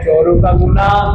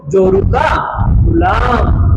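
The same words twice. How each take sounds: First: Said in the usual way. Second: Emphatic shout. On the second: Shown as a demonstration. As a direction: shout जोरू का to drive the meaning home, then land Ghulam. Teacher punches the Hindi meaning.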